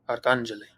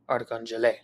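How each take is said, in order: First: The stress is on the second syllable. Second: The stress is on the fourth syllable. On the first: "the acute accent mark over the second A, which tells us that this is the syllable that we need to stress" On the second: "if the acute accent mark were over the last E"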